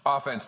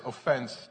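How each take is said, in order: First: The stress is on the first syllable. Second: The stress is on the second syllable. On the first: It is the sports term for the attacking side. "I say that in honor of football today" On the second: It means taking offense or feeling hurt. "What we really should be saying is offense, defense, you know, a little different pronunciation"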